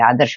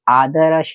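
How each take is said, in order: First: The r joins the next consonant directly. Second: The r is said with its own vowel. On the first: The speaker calls it right. "यहाँ र आधा है, इसको बोलेंगे भी हम ऐसा ही" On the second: The speaker calls it wrong. "आदर्श नहीं बोलेंगे"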